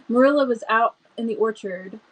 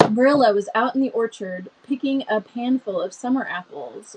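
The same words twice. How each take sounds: First: Hurried and excited; excited rush. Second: Calmer, slower reading; slowed down. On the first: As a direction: reader rushing ahead, too eager. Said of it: "Let me slow down. I'm so excited". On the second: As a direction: reader deliberately reins herself in. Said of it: "Let me slow down". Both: Shown as a demonstration.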